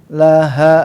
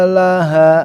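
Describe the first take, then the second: Both takes have the same delivery.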